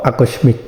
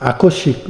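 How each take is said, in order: First: আকস্মিক said as "akosmik", ম sounded; আকস্মিক read as a-kos-mik, the form to avoid; wrong pronunciation. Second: আকস্মিক said as "akoshik", doubled sh, no ম; আকস্মিক spoken as a-kosh-shik, ম silent; correct pronunciation. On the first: Teacher warns students of the wrong form: আকস্মিক as akosmik. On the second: Teacher shows students the right way: আকস্মিক as akoshik. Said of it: "not আকস্মিক". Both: Shown as a demonstration.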